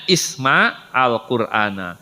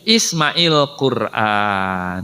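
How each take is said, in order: First: The two words are said separately, unlinked. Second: The two words run together with a linking vowel. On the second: "Ketika disatukan dibaca menjadi"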